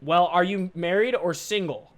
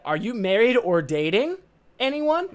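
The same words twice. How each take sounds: First: "Well, are you married or single?" said slowly, falling after "married"; the version she did not say, slow and even; the wrong version. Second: "Are you married or dating anyone?" with "anyone" pitched up high; imitating the caller. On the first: Shown as a demonstration. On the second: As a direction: mimic her question, rising sharply on "anyone".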